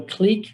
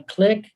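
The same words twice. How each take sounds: First: "clique" with long ee, like "cleek". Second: "clique" with short i, like "click". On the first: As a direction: say "clique" rhyming with "seek". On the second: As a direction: say "clique" rhyming with "stick". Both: Shown as a demonstration. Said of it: "or a clique".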